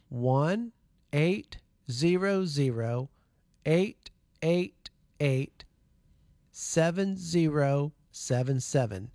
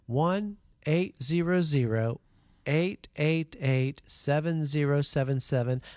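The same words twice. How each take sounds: First: The number is read more slowly. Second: The number is read at a normal pace.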